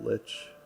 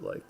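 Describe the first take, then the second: First: The word ends with a ch sound. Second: The word ends with a k sound. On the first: "I know some people pronounce it lich" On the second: "I've always pronounced it like"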